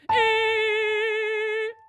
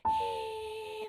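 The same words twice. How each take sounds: First: It is a strong, resonant head voice sound. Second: It is a weak, airy falsetto sound.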